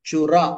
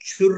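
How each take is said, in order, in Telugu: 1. ఈ పదం చిన్న a అచ్చుతో ముగుస్తుంది. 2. ఈ పదం చివర ఒట్టి r ధ్వని ఉంటుంది. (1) "చుర్రు కత్తు కాదు, చుర" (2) "మీరు చదివేటప్పుడు ఆ హిందీ అక్షరాలాగా చుర్ అంటున్నారు"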